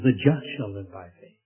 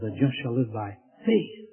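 First: The stress falls on the word just. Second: The stress falls on the word faith. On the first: The focus is on who is righteous. "he places the emphasis on the just" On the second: The focus is on what the righteous live by. "places the emphasis on the faith"

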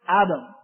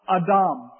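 First: The name is said with a local English pronunciation. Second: The name is said with a Hebrew pronunciation. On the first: "or Fayetteville pronunciation" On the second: "in Hebrew, we would call both of these men Adam"

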